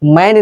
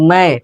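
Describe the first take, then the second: First: The word ends with a full n consonant. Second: The word ends with only a nasalized vowel. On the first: The speaker calls it wrong. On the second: The speaker calls it right.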